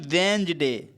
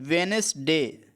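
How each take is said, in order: First: The word is said with two syllables. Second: The word is said with three syllables. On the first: "एक तो वेंसडे पढ़ लेते हैं" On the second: "इसको हम लोग वेनेसडे भी पढ़ लेते हैं"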